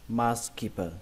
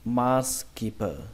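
First: The word is said quickly as one smooth unit. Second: The word is said slowly, syllable by syllable. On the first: "còn khi các bạn đọc nhanh thì cứ đọc là" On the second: "Khi phân tích chậm nó thì nó là"

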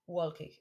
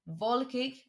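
First: The word begins with an English w sound. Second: The word begins with a v sound. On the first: The speaker calls it wrong. "not wolkig" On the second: The speaker calls it right. "V all the time when you see W"

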